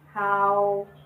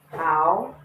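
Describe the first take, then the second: First: The pitch stays level and flat. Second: The pitch rises steadily upward.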